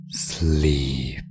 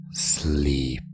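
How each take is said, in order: Both takes have the same delivery.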